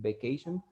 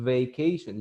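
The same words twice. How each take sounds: First: The word begins with a B sound. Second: The word begins with a buzzing V sound. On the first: The speaker calls it wrong. "You don't say vacation, vacation with B" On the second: The speaker calls it right. "whenever you have the letter V, you pronounce it V"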